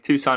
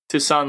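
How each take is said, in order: First: It sounds like the Arizona city name. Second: It sounds like the French name Toussaint. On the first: "like Tucson, Arizona" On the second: "like Tucson Louverture"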